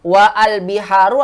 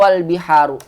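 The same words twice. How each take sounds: First: "Wa al-biharu" with wa and al kept apart, loud; unjoined reading. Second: "wal biharu" with wa and al merged into one syllable; joined reading. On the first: Teacher showing the wrong reading, "Wa al-biharu" loud and unjoined. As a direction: sound a separate a in al after wa in "Wa al-biharu". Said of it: "Kita tidak bilang wa al biharu". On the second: Teacher offering the correct form, "wal biharu" joined as one. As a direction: run wa straight into l: "wal biharu". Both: Shown as a demonstration.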